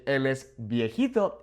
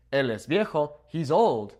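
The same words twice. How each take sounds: First: "viejito" said kindly, a little softer; softer, nicer. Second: Said in the usual way. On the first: Shown as a demonstration. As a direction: gently say "viejito" with fond softness. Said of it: "makes it sound a little bit softer". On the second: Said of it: "So instead of saying".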